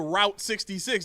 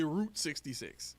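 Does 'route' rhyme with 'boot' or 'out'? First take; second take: out; boot. First: Route is said to rhyme with out. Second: Route is said to rhyme with boot. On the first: This is not how people usually say it. The speaker calls it wrong. "People don't say people don't say" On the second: This is how people usually say it. The speaker calls it right. "They say"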